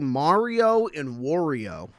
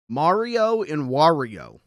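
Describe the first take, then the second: First: Wario begins with a vowel like 'war'. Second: Wario rhymes with Mario. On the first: The speaker calls it wrong. "But I say Mario and Wario" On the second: The speaker calls it right. "it's Mario and Wario"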